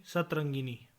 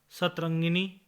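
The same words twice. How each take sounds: First: Said in the usual way. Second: सतरंगिनी drawn out as the faulty form; mispronunciation. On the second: Shown as a demonstration. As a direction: show सतरंगिनी slowly as the form to avoid. (सतरंगिनी का अशुद्ध उच्चारण) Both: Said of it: "नहीं".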